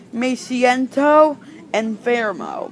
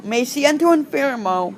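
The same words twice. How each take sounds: First: Slow demo. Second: Said in the usual way. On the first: Shown as a demonstration. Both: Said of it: "they might answer saying".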